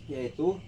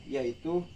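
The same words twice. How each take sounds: No difference in how they are said.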